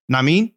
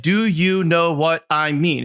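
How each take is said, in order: First: "Na mean?" run together fast as two syllables, nah-meen; Ohio slurred "na mean". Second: Said in the usual way. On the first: Shown as a demonstration. Showing his old Ohio way of saying it, clipped into two syllables. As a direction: squash "Na mean?" into one quick slur. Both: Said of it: "six words that turned into two syllables".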